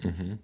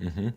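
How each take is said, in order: Both takes have the same delivery.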